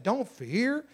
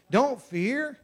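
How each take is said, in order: First: Fear lifted at the end; gentle rise on fear; stress on fear. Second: Don't pushed higher and louder; emphatic don't, rising; stress on don't. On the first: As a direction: say it lightly, rising on fear. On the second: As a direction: lean hard on don't. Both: Shown as a demonstration.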